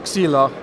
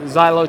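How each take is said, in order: First: The name is said with a Greek pronunciation. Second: The name is said with an English pronunciation. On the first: The speaker calls it right. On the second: The speaker calls it wrong.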